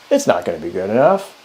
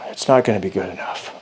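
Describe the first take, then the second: First: It sounds harsh, like a critic. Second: It sounds dejected and worried.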